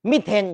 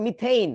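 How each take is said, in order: First: মিথেন with a plain e, drawn slowly; Bengali pronunciation. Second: মিথেইন ending in a gliding "-theyn"; English lecturers' pronunciation. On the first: Retold or imitated. Teacher mimicking Bengali speakers, মিথেন as slow "mi-then". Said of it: "বাঙালিরা কয় মিথেন". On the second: Shown as a demonstration. Teacher quoting English lectures, মিথেইন as "mi-theyn". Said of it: "সবসময় ওরা বলে মিথেইন".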